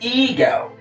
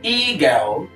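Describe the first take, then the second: First: The first vowel is a long 'ee' sound. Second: The same.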